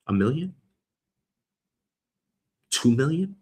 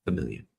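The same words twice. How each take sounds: First: "A million?" asked with a rising tune; "A million?" lifted at the end like a question. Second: "a million." dropped low and soft with a falling tune; "a million." closed off in a low fall; settled statement. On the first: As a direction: float "A million?" up as a guess. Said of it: "Let's call it a million". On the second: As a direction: settle it, "a million." said lower and quieter. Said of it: "Let's call it". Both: Shown as a demonstration.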